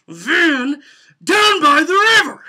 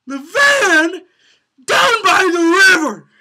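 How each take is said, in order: First: Loud "Van down by the river" held back a notch; lighter take. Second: High, loud, slow "down by the river" with a break; full cracking shout. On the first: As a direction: put a little less into "Van down by the river". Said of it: "sometimes you put a little less into it". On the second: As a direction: give "The van down by the river" everything. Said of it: "that doesn't give off". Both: Shown as a demonstration.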